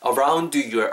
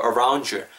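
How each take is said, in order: First: "around your" with the d sounded before "your"; separate words. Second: "around your" merged as "aroun-jer"; linked d and y. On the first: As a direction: say "around" and "your" apart, d audible. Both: Shown as a demonstration. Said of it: "혹은 around your가 around your".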